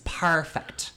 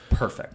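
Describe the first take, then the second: First: The word is said in an Irish accent. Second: The word is said in an American accent.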